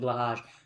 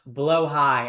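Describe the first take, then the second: First: The word sounds like 'blah-hahj'. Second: The word sounds like 'blow high'. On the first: This is the speaker's own chosen pronunciation. "I'm gonna pronounce it Blahaj" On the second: This is the proper pronunciation. "I know it's pronounced blow high"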